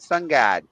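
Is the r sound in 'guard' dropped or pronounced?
dropped. The word guard is said without r, like god. "he was pronouncing it Sun God"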